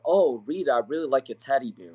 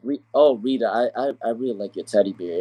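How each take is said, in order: First: It is said smoothly and sincerely. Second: It is said hesitantly, with a reluctant tone.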